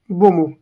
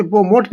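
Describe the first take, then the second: First: "बोमो" ending on an open O; correct pronunciation. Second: "बोमोट" closed with a hard ट; wrong pronunciation. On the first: Teacher repeating the word for students, "बोमो" with no T. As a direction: leave the final T silent in "बोमो". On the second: Teacher warning students off this form, "बोमोट" with the T pronounced. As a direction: sound the last T in "बोमोट". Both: Shown as a demonstration. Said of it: "इसे बोमोट नहीं बोलेंगे".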